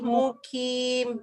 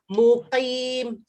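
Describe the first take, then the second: First: The middle consonant is made further forward, like k. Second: The middle consonant is made deep in the throat.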